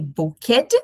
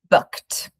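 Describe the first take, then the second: First: The ending is an extra syllable with a vowel. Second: The ending is a plain t with no vowel. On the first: The speaker calls it wrong. "So we don't say booked" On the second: The speaker calls it right. "we say booked"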